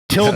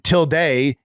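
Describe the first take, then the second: First: The word is pronounced the English way. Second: The word is pronounced the Spanish way. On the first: "is the English pronunciation" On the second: "is the Spanish language pronunciation"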